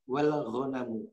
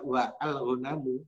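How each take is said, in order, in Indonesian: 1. Wa dan al disambung menjadi satu suku kata. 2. Wa dan al dibaca sebagai suku kata terpisah. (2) "bukan dibaca"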